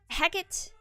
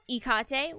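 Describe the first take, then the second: First: The name is pronounced the Shakespearean way. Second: The name is pronounced the Greek way. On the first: "which is the Shakespearean uh, Shakespearean version" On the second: "which is the Greek version"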